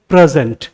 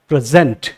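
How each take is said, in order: First: The stress is on the first syllable. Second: The stress is on the second syllable. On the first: It is used as a noun. "Otherwise noun है तो" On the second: It is used as a verb. "Second syllable पे stress आएगा"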